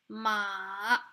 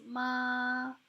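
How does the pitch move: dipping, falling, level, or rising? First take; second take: dipping; level. First: The pitch dips down, then rises. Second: The pitch stays steady and level. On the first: It means horse. "it kind of goes downwards and upwards again" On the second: It means mom. "So this is the basic tone"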